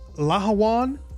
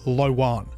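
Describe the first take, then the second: First: The H sound in the middle is pronounced. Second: The H sound in the middle is dropped. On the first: "with the H actually pronounced" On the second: "I've heard others just say"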